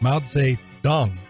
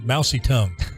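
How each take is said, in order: First: The name is said as Mao Zedong. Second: The name is said as Mousy Tongue. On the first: The speaker calls it right. "Mao Zedong is is the right pronunciation" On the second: The speaker calls it wrong. "For years, I called him Mousy Tongue"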